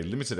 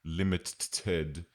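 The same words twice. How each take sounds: First: Said in the usual way. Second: "limited" with the middle T doubled and stuttered; "limited" broken in two at an over-pronounced double T; double T sounded. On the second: Shown as a demonstration. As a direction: read the misspelling of "limited" literally, as limit-ted. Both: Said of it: "a limit double T".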